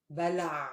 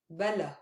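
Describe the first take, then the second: First: بلع ending in a throaty ain; بلع with a clear ain at the end. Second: بلا ending in an open long a; بلا with no ain at the end; plain long a. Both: Shown as a demonstration. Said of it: "Do you hear the difference?".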